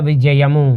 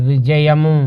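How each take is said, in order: No difference in how they are said.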